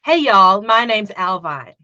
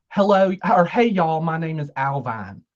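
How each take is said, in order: First: Put-on Southern accent, starting loud; American Southern accent. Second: Southern accent. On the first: Guest copies the host's line on request, Southern accent. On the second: Host shows guest the line to copy, light Southern accent. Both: Shown as a demonstration. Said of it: "Can you do a Southern accent".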